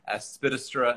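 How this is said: The word is said in a British accent. This is how a British relative said it. "or aspidistra instead of"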